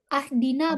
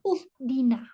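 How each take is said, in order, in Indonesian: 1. Kata ini diawali dengan vokal a. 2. Kata ini diawali dengan vokal u. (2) "bukan juga"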